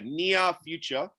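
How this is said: The R at the end of near is dropped. "but Australia near future"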